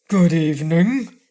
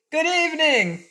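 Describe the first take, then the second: First: Louder frogman greeting. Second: High-pitched mock yell. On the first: Frogman greeting a ferryman who will not look up, loud frogman voice. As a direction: greet in a loud, unhurried character voice. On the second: Cake yelling close to the silent ferryman's ear, high narrated yell. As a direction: call it out very high, without full volume. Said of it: "she yelled as loudly as she could". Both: A narrator's reading.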